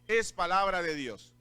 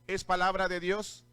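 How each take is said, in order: First: It is said as a flat statement, falling. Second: It is said as a question, rising.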